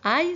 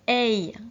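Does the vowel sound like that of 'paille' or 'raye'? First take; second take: paille; raye. First: The vowel sounds like the one in paille. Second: The vowel sounds like the one in raye. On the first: The speaker calls it wrong. "ça ne se prononce pas aïe" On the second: The speaker calls it right. "ça se prononce aïe, comme dans raye ou paye"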